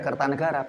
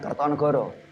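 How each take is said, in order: First: The later vowels are said as an 'a' sound. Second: The later vowels are said as an 'o' sound. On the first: This is the old Javanese reading without the O vowel. The speaker calls it right. "Membacanya ya Kertanegara" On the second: This is the later reading with the O vowel. The speaker calls it wrong. "bukan Kertonegoro"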